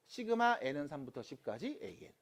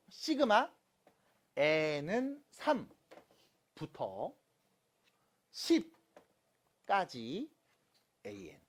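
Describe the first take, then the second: First: Said in the usual way. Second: Slow demonstration reading. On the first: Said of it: "이렇게 읽습니다". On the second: Shown as a demonstration. Teacher showing students how to read sigma notation, slow and segmented. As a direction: piece by piece, with long pauses between parts. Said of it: "읽는 거".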